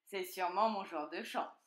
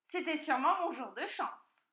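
First: Fox exclaiming. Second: High, gleeful piglet voice; delighted piglet. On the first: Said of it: "s'écria le renard". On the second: Piglet after outwitting the fox, high delight. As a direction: exult high as a lucky piglet. Piglet echoes the fox's line. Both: A narrator's reading.

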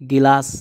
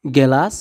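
First: গিলাস with an i in the first syllable, not e; Hindi pronunciation. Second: Said in the usual way. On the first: Shown as a demonstration. Teacher giving learners the Hindi word for glass, Hindi pronunciation. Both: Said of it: "এটা হবে".

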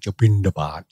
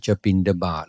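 First: "บิณฑบาต" with the ณ pushed into the nose; exaggerated nasal n. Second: Said in the usual way. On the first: Shown as a demonstration. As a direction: say "บิณฑบาต" with a long, overdone nasal n. (ออกเสียง "บิณฑบาต" เน้น ณ ขึ้นจมูก) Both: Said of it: "นอเนนจะต้องออกในจมูก".

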